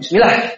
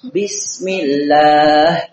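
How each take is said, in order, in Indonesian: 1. Vokal pada suku kata terakhir pendek. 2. Vokal pada suku kata terakhir dipanjangkan. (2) "beliau baca dengan mat"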